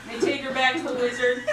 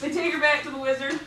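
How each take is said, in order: First: Words breaking into real laughter; laughing through it. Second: Fast, steadier retake rising at the end; quick retry. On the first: Teller repeats the line to listeners, laughing through it. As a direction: try to say it but keep cracking up. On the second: Teller retries the line to listeners, hurried and steadier. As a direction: push through it quickly this time. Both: Real, not acted.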